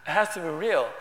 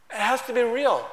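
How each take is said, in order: First: Said in the usual way. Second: Louder, higher, weight on "be" in "It has to be real."; emphatic. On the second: Shown as a demonstration. Preacher stressing to the church that prayer must be real, emphatic. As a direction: lean hard on "be" in "It has to be real.".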